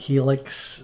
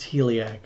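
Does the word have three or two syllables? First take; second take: two; three. First: The word is said with two syllables. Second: The word is said with three syllables. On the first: The speaker calls it wrong. "not Helix" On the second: The speaker calls it right. "that's really supposed to be pronounced Heliax"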